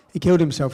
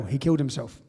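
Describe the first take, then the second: First: "He killed himself" louder, stressing killed; repeating it louder with weight on killed; emphatic repeat. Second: Said in the usual way. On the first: Real, not acted. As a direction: land the word killed hard.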